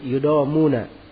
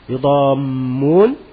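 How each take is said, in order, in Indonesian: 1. Bunyi m tunggal dan pendek. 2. Bunyi m dobel dan ditahan lama. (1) "bisa tidak ditasydid" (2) "mimnya ditasydid"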